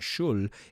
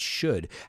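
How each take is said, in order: First: The L sound is pronounced at the end. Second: The L sound is left silent. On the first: The speaker calls it wrong. "It's not shul" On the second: The speaker calls it right. "we don't pronounce the L"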